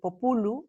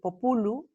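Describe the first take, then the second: First: The stress is on the second syllable. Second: The stress is on the second syllable.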